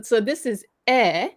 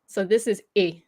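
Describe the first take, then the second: First: E said as open French è, /ɛ/; French grave-accent sound "eh" on E. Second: E said as closed French é, /e/; French acute-accent sound on E. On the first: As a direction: say E like the "e" in "bed", held open. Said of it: "It's not the same accent". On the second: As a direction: say E like a short, pure "ay" without a glide. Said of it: "you pronounce E". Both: Shown as a demonstration.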